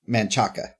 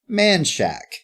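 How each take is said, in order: First: Three syllables, ending in a full -chaca. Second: Two syllables, sounding like man shack. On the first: The speaker calls it right. "how do you say that word?" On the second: The speaker calls it wrong. "Man Shack is how they pronounce that road"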